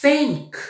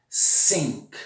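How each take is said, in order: First: "Think" with the tongue between the teeth. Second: "Sink" with a plain hissed S; "Sink" says S, tongue behind teeth. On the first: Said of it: "o verbo pensar". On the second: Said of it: "Sink significa pia". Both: Shown as a demonstration.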